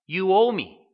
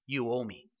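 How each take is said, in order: First: Loud, higher accusing demand; forceful demand. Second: Low, soft quoted demand; understated demand. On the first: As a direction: hammer home the resentful son's claim, voice raised. Older son's demand, forceful repeat. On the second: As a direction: voice the son's claim quietly, low and held back. Older son's demand, first take. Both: Retold or imitated.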